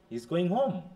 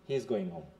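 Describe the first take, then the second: First: The voice rises at the end. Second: The voice falls at the end. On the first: It asks whether he is going home. "সে কি বাড়ি যাচ্ছে?" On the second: It states that he is going home. "Falling পিস or simple statement হচ্ছে এটা।"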